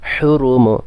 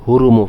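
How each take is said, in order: First: The first h is made deep in the throat. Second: The first h is a plain, light h. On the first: The speaker calls it right. "হলকের মধ্যে কিন্তু উচ্চারিত হা" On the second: The speaker calls it wrong. "অনেকে হুরুমু পড়ে, হুরুমু হবে না"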